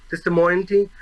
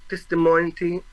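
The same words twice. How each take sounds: The two takes are said the same way.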